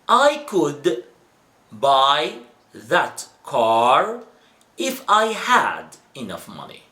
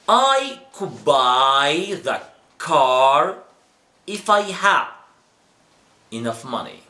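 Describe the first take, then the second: First: Each word is pronounced clearly and separately. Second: The words are reduced and linked together smoothly. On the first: This is the way taught at schools. "I did read it in a right pronunciation. Yes, pronunciation here is right, academic way, very clear" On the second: This is the way natives speak in everyday conversation. "So I read it another way"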